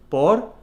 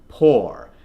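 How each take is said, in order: First: The R is strongly rolled. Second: The R is not rolled. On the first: The speaker calls it wrong. "rolling the R a little too much" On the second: The speaker calls it right. "that nice strong or from the back of the neck"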